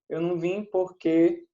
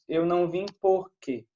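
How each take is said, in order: First: Porque is stressed on its last syllable. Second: Porque is stressed on its first syllable. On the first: This is how it is said today. "A gente faz isso hoje" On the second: This is how it used to be said. "A pronúncia já foi"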